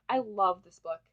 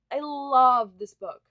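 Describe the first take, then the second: First: Said in the usual way. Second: I love this book stretched out slow and much louder, LOVE hit hard; slow emphatic declaration. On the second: Shown as a demonstration. Telling viewers about her favourite book, slow loud emphatic love. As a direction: drag out every word and lean on love. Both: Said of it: "I literally can't say this enough".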